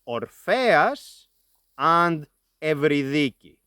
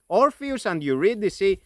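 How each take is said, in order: First: The names are pronounced the modern Greek way. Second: The names are pronounced the English way. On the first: "In modern Greek, we pronounce them as" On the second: "this is the English pronunciation of those names"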